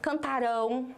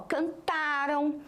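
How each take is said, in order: First: The stress is on the final syllable. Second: The stress is on the second-to-last syllable. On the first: The action has not happened yet. "a sílaba forte não está no meio, não está no começo, está no final" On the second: The action already happened. "a sílaba forte sempre foi antes da sílaba final"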